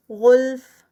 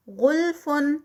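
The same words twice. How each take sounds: First: غلف ending on a breathy ف; recited stop form. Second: غلفن with a heavy غ and a nasal ending; recited continuous form. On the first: Teacher showing the stop with whispered ف. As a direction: stop at غلف and let air out on the ف. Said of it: "فا کا ہمس". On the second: Teacher to students, reciting continuously. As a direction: chant غلفن slowly. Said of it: "Quran recitation demo". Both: Shown as a demonstration.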